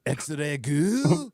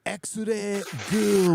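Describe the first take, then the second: First: Put-on over-the-top accent, surprised to see her; thick accent, startled and delighted. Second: Put-on over-the-top accent on X-ray goo; thick exaggerated local accent; overdone thick local accent. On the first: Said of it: "say it as if you're really surprised to see her". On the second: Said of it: "with the voice".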